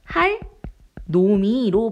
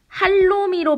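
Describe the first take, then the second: First: There is a break after the first syllable. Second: The syllables run together without a break. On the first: The speaker calls it right. "음을 끊어서 읽는 거예요" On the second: The speaker calls it wrong. "할놈이로 발음하는 게 아니라"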